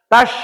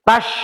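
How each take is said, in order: Both takes have the same delivery.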